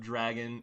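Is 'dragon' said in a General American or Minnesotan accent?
General American. It is said in a General American accent. "Instead of dragon"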